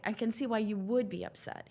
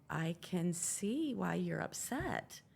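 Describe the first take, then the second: First: "would" lifted in pitch and stretched; "would" stands out as a qualifier; stress on would. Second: Slow, measured retold reply; weighing each word slowly; careful concession. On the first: Retold or imitated. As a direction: lean on "would" with a rise and fall. Husband rewords his careful reply. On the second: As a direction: draw it out, picking the words carefully. Husband carefully answers upset wife.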